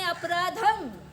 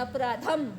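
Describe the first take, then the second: First: The word is pronounced clearly and carefully. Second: The word is pronounced loosely and imprecisely. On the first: The speaker calls it right. "हम बोलते हैं" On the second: The speaker calls it wrong. "आप बोलते हैं"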